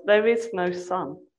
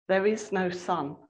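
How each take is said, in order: First: Slow, hushed-style insistence; softer and deeper. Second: Measured, understated gravity; slow and grave. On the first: Witch presses the claim on the children, deep and slow. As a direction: repeat it slowly, with understated depth. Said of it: "in a softer and deeper voice". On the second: Witch repeats her claim to the children, gravely. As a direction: state it gravely, holding the volume back. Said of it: "Slowly and gravely". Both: A narrator's reading.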